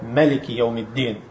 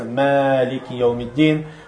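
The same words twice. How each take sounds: First: The first vowel of Maliki is short. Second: The first vowel of Maliki is long. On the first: "второй вид чтения" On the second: "после «мэ» идет «элиф», который удлиняется"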